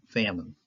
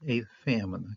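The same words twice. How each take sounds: First: Said in the usual way. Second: 把"a"读重一点; stress on a. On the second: Shown as a demonstration. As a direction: lean on "a" before "famine". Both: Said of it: "No, no article here".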